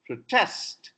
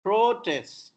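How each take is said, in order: First: "protest" as pro-TEST; reduced first syllable, stressed TEST in "protest"; verb stress. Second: "protest" as PRO-test, high first syllable; noun stress. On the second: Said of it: "is noun". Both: Shown as a demonstration.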